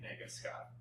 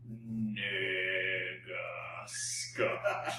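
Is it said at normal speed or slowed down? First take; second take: normal; slowed down. First: It is said at normal speed. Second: It is said slowed down, drawn out.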